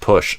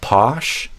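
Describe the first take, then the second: First: The vowel is like the one in 'good'. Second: The vowel is open, like 'posh'. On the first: The speaker calls it right. "the same vowel sound as in good" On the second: The speaker calls it wrong. "instead of posh"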